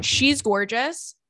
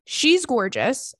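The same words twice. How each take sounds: First: Slow, drawn-out "She's gorgeous" with a rising tune; stress on gorgeous. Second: Slow "she's gorgeous", rising at the end; stress on gorgeous. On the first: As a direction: lean hard into "gorgeous". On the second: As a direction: stretch out "gorgeous" to insist. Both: Real, not acted. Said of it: "I can't stress it enough".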